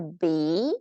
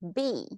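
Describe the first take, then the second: First: The pitch rises on the word. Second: The pitch falls on the word. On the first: It asks a question. "Did you notice the bee go up" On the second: It makes a statement. "Notice B goes down"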